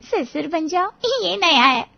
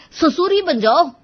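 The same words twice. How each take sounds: First: High-pitched, tickled repetition; amused echo. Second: Loud, high, exasperated punchline; angry outburst. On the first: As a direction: repeat his outburst as a funny novelty. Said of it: "फिर अचानक हंस पड़े". (मज़े लेकर ऊँची आवाज़ में दोहराना) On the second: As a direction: fling it at them in exasperation. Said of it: "अब आर्यन का पारा चढ़ गया". (गुस्से में ऊँची आवाज़) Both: A narrator's reading.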